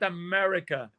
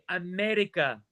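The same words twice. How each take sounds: First: The R is a smooth English-style R. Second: The R is rolled or trilled. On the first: The speaker calls it wrong. "not America" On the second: The speaker calls it right. "say America"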